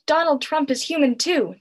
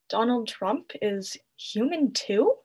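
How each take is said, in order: First: It is shouted back with eager enthusiasm. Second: It is said hesitantly, like a doubtful question. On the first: The crowd agrees wholeheartedly. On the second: The crowd questions the claim.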